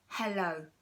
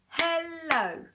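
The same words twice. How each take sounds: First: Said in the usual way. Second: "Hello" in two high, louder clapped beats, hel-lo; clapped syllables. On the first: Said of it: "How about". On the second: Shown as a demonstration. Teacher clapping "Hello" for the children. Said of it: "we clapped twice".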